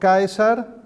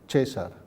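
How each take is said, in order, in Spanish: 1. La primera vocal es el diptongo 'ae'. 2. La primera vocal es una 'e' simple. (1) "El diptongo Caesar" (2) "A E se ha convertido en E, entonces César"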